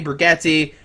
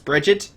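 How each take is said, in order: First: The name ends with an "ee" vowel sound. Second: The name ends without an "ee" vowel sound. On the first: The speaker calls it wrong. "I still want to say Brigetti like Mom Spaghetti" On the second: The speaker calls it right. "But I know it's Bridget"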